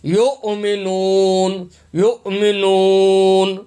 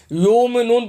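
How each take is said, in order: First: یؤمنون slow, with a clear hamza catch after یُ; hamza with sukun. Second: یؤمنون read plain, hamza glossed over; wrong reading. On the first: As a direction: stop sharply on the hamza in یؤمنون, then glide on. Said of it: "حمزہ کے اوپر جزم ہے". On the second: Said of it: "غلط پڑھ رہے ہوتے ہیں". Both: Shown as a demonstration.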